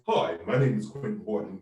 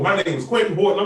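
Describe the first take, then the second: First: It is said in a put-on, formal tone. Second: It is said in a casual, street tone.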